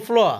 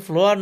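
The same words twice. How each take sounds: First: ফ্লোয়া ending on an open "a", no R; silent final R. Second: ফ্লোয়ার with the final R sounded; final R pronounced. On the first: Teacher correcting learners, ফ্লোয়া said without R. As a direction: drop the last R in ফ্লোয়া. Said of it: "এটাকে বলবো ফ্লোয়া". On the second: Teacher showing learners what to avoid, ফ্লোয়ার with sounded R. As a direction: end ফ্লোয়ার on an audible R. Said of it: "ফ্লোয়ার না বলে". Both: Shown as a demonstration.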